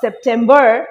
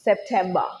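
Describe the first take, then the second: First: The R sound is clearly pronounced. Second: The R sound is silent. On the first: "American accent wise আর can be pronounce they stress on the আর" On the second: "for British accent it is September"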